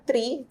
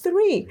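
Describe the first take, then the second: First: "three" said like tree, a hard t instead of th; learner's "three" without the th; wrong pronunciation. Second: "three" with a proper th, tongue between the teeth; "three" with the th sound done correctly. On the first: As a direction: mispronounce "three" with a plain t sound. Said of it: "no three". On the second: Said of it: "a la final decía three". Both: Shown as a demonstration.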